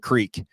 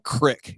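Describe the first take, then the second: First: The vowel is a long 'ee' sound. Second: The vowel is a short 'i' sound. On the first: "instead of a creek" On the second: "calling it a crick"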